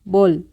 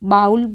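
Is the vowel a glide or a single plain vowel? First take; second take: plain vowel; glide. First: The vowel is a single plain 'o' sound. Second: The vowel glides like 'ow' in 'cow'. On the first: The speaker calls it right. "इसको हम बॉल बोलेंगे" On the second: The speaker calls it wrong. "बहुत सारे लोग इसको बाउल पढ़ते हैं, तो ये हमारा प्रोनाउंसिएशन गलत होता है"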